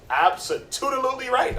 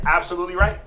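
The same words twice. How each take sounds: First: "absolutely" drawn out slowly, high-pitched; playful emphatic agreement. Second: Said in the usual way. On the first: Real, not acted. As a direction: stretch "absolutely" with playful extra syllables, higher. Playfully stretched repeat of agreement.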